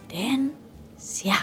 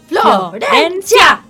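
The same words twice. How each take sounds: First: The name is said softly and quietly. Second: The name is said loudly and strongly. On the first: "Despacito lo digo" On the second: "Todo fuerte"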